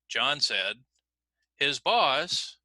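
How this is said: The pitch rises at 'his boss' after a break. What follows is a quotation of John's words. "we would uh, raise the intonation starting with the beginning of the quotation"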